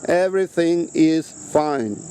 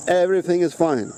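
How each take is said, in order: First: Everything is fine drawn out slowly, each word weighed; slow down and lean on "Everything"; slow emphatic repeat. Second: Said in the usual way. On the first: Shown as a demonstration. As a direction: spell it out slowly so it sinks in.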